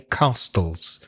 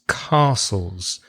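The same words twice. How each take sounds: First: The T sound in the middle is pronounced. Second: The T sound in the middle is silent. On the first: The speaker calls it wrong. "I hear some of my students say castles" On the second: The speaker calls it right. "it has a silent T"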